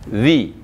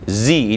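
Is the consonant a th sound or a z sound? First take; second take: th sound; z sound. First: The tongue tip touches the upper teeth. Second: The teeth are closed, giving a z. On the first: The speaker calls it right. "cukup dengan ujung lidah menyentuh kepala gigi atas" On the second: The speaker calls it wrong. "Jangan rapatkan gigi. ... Itu zai"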